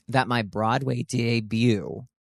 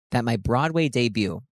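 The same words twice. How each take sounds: First: Said in the usual way. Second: Voice cracking. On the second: Real, not acted. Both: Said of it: "my voice cracked during that".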